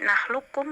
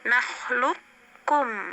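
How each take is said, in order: First: The q sound is dropped, merging into k. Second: The q sound is kept briefly before k. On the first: "mengidgham kamilkan menjadi nahlukum langsung ke kaf, qafnya nggak dibaca" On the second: "idgham naqis menjadi qafnya dibaca tanpa qalqalah"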